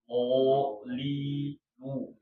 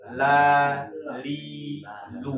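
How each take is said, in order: First: The L sound is heavy and thick. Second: The L sound is light and thin.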